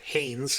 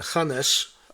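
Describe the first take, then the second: First: The name is said in an American way. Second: The name is said in a non-American way.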